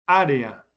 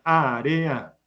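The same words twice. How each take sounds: First: Said in the usual way. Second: Área very drawn out, á-re-a; slow sounding-out. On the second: Shown as a demonstration. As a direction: stretch every syllable of área. Teacher repeats the word slowly. (área muy despacio, sílaba por sílaba)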